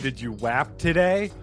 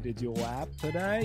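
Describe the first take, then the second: First: It is said in the speaker's normal voice. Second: It is said in a put-on cartoon gangster voice.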